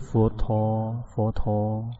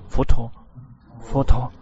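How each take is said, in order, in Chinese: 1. 是以轻松、自在的方式念的。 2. 是以紧张、勉强的方式念的。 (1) "让心是很正常的，是佛陀佛陀" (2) "不是佛陀佛陀，不是这样的"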